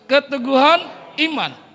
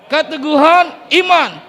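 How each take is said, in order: First: It is said loudly. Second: It is said very loudly.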